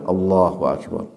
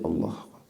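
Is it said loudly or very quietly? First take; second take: loudly; very quietly. First: It is said aloud, audible to a neighbor. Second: It is said barely audibly, almost to oneself.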